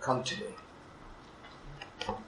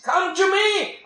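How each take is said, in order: First: Breathed slowly, almost silent; slow hushed whisper of God's call; tender whisper. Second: High ringing divine call; fervent call. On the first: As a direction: whisper the invitation. God's call repeated softly. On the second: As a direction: cry out the invitation. God's call voiced in sermon. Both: Acted.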